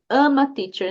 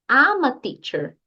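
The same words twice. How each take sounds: First: The opening is pronounced like 'ama'. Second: The opening is a smoothly linked 'I'm a'. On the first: The speaker calls it wrong. "eu já ouvi algumas pessoas falando ama teacher" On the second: The speaker calls it right. "É ama teacher"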